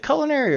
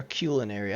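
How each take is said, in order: First: "culinary" starting like "cull"; "culinary" as CULL-in-airy; first syllable KULL. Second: "culinary" starting like "cue"; "culinary" as KYOO-lin-airy; first syllable KYOO. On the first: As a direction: say "culinary" with a short first vowel, no y sound. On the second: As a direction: say "culinary" with a y glide, long oo. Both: Shown as a demonstration. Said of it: "Is it culinary or culinary".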